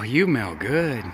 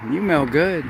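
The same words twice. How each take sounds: First: Soft, slow and fond; tender. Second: Said in the usual way. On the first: Real, not acted. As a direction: savor it gently. Sniffing grandchild after bath.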